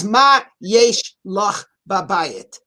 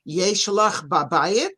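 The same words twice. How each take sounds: First: Slow Hebrew question with a falling end; confident question. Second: "Yesh lach babayit?" asked slowly with a rising end; a hesitant yes-no question; doubtful question. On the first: Prophet asks the widow what she has, slow and firm. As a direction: ask it slowly and firmly, as a knowing prophet. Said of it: "What does he not say to her?". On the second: Prophet asking the widow if she has anything, tentative. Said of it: "He does not say to her". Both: Shown as a demonstration.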